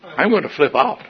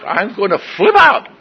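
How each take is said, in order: First: Higher-pitched, held-back retold exasperation; mounting frustration. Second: High, loud retold blow-up; exasperated outburst. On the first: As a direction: say it tensely without yelling yet. First, milder take of being ticked. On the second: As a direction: let the frustration burst out, hammed up. Repeats it louder, losing control.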